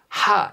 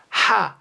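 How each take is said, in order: First: The syllable is said with a strong breathy puff. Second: The same.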